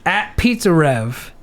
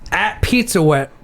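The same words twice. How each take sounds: First: "Pizza Rev" slow, stressing the R; "Rev" with a hard, deliberate R; careful hard R. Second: "Pizza Wet" with R as W; "Rev" comes out "Wet", R softened to W; says w for r. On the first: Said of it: "Hard R". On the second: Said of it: "I can't say the R's". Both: Real, not acted.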